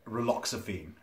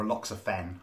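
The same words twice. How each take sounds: First: "raloxifene" ending in a long "feen"; alternative pronunciation. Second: "raloxifen" ending in a short "fen"; alternative pronunciation. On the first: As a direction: say "raloxifene" with the last syllable rhyming with "seen". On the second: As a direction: say "raloxifen" with the last syllable rhyming with "ten". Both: Shown as a demonstration. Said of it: "I don't know how it's pronounced".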